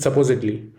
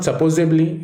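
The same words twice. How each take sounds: First: "supposedly" as suh-POH-zid-lee; "supposedly" with a clear d; right supposedly. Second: "supposedly" as suh-POZE-ib-lee; "supposedly" with an extra b; wrong supposedly. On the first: Teacher showing students the right way, "supposedly" with a d. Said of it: "it's supposedly". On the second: Teacher showing students the wrong way, "supposedly" as supposably. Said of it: "It is not supposedly". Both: Shown as a demonstration.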